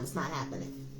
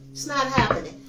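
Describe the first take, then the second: First: Much softer and lower, to herself; hushed denial. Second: Said in the usual way. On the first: Real, not acted. Reader dismissing old ancestors' return, hushed low denial. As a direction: drop it to a low murmur.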